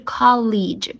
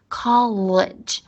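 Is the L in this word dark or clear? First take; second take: clear; dark. First: The L is clear, like the Chinese syllable li. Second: The L is dark, with the tongue curled back. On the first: The speaker calls it wrong. "不是college 不是那个中文的那个里外的里那个不对" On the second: The speaker calls it right. "就是先把舌头卷出来college"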